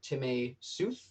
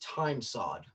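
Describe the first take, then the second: First: It is said the etymological way. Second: It is said the way it looks. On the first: "the technically correct pronunciation" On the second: "I prefer to think of it as ... because that's what it looks like"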